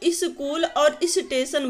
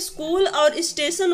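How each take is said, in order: First: The words begin with an added i vowel. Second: The words begin directly with an s sound. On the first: The speaker calls it wrong. "ये अशुद्ध उच्चारण हो जाता है" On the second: The speaker calls it right. "यहाँ पर स्कूल और स्टेशन होता है"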